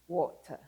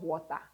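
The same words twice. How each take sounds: First: The ending is a weak, relaxed schwa. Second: The ending is a full, open 'ah' vowel. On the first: The speaker calls it right. "just use a" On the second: The speaker calls it wrong.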